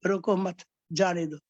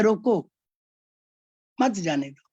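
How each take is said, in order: First: "रोको मत" run together, then a break before "जाने दो"; pause after मत. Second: "रोको" alone, long stop, then "मत जाने दो" together; pause after रोको. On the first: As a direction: join "मत" to "रोको", pause, let "जाने दो" follow. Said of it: "रोको नहीं, इसको जाने दो". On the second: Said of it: "दूसरे में कहते हैं कि". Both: Shown as a demonstration.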